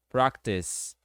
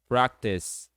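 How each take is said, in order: No difference in how they are said.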